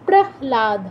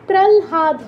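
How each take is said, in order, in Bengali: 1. h ধ্বনিটি l-এর আগে আসে। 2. l ধ্বনিটি h-এর আগে আসে। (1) "সরি হটাই আগে উচ্চারণ হবে" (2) "এখানে প্রহ্লাদ হবে না"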